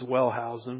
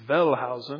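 First: The name is said with an English pronunciation. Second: The name is said with a German pronunciation. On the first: "I pronounce it as Wellhausen" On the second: "in German it's Wellhausen"

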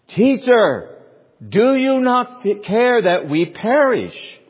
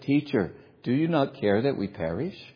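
First: It is yelled loudly and urgently. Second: It is spoken quietly and calmly. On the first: The speaker calls it right. "They probably yelled out" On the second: The speaker calls it wrong. "do you think they said"

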